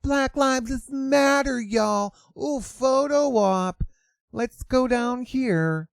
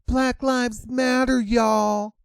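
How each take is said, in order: First: Higher, slow and airy mimicry; mock influencer voice. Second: High, sing-song valley-girl mockery; mock influencer voice. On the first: Vlogger parodying the influencer again, higher and slower. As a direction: drag it out like a vain poser. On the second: Mocking a protester posing for photos, high and airy. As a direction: sneer at her as a vapid influencer.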